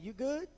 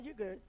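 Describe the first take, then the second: First: It sounds like a concerned, checking question. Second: It sounds dismissive and fed up. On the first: Asking whether someone is okay. "let's say you want to check on somebody" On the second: Telling someone to stop talking. "Let's say you tired of somebody talking to you"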